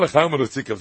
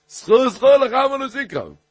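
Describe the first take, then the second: First: Said in the usual way. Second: High, loud, forceful warning; emphatic corrected reading. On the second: Shown as a demonstration. Teacher showing how the warning to the nazir goes, emphatic. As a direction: call it out high, hammering the repeated word. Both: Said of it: "זי גייט נישט אזוי".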